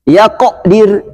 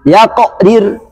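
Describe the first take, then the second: No difference in how they are said.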